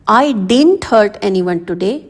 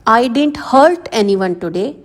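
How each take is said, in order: First: The stress falls on the word didn't. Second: The stress falls on the word hurt. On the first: "अब इसमें आप didn't पर stress डाल रहे हो" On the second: "अब इसमें हर्ट पर प्रेशर डाला गया है।"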